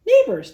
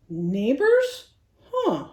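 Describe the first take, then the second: First: Smiling. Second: Grunt. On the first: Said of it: "Nicholas smiled". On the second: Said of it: "Ned grunted". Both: A narrator's reading.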